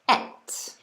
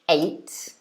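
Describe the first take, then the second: First: The vowel is a short 'eh' sound. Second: The vowel is a long 'ay' sound. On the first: "but you could also pronounce it et" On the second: "you could pronounce this verb ate, so a, this sort of sound"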